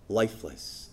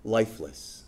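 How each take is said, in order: First: Lifeless sunk low and soft again; repeated emphasis. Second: Lifeless dropped low and soft; weighted word. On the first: Preacher repeating James's key word, low and quiet. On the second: Preacher stressing the word James uses, low and soft. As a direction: let lifeless fall quiet and heavy. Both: Shown as a demonstration. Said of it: "the word he uses is".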